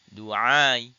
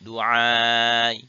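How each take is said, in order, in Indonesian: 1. Vokal panjang ditahan selama dua harkat. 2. Vokal panjang ditahan selama empat harkat. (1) "Dengan qasr" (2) "dengan tawassut"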